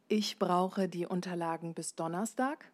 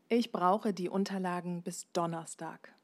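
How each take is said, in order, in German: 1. Die Tonhöhe steigt am Ende. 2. Die Tonhöhe fällt am Ende.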